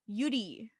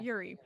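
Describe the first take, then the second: First: The name is said with a Korean pronunciation. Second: The name is said with an American pronunciation. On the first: The speaker calls it right. "because they're Korean, they pronounce it Yuri" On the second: The speaker calls it wrong. "how you would say it, like Americanized"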